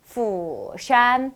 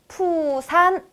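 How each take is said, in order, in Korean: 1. 이 단어는 f 소리로 시작합니다. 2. 이 단어는 p 소리로 시작합니다. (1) "영어 F처럼 푸샨 하셔야 되겠습니다" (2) "푸산 아니고요"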